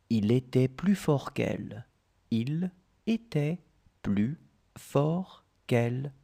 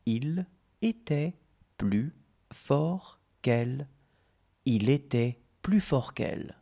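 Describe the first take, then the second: No difference in how they are said.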